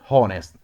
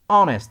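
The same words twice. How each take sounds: First: The word starts with an audible h sound. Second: The word starts with no h sound. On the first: The speaker calls it wrong. "not honest" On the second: The speaker calls it right. "Silent H"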